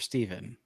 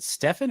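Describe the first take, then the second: First: The name is said with a v sound. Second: The name is said with an f sound. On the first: The speaker calls it right. "it's pronounced Steven" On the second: The speaker calls it wrong. "is it Stefan or Steven?"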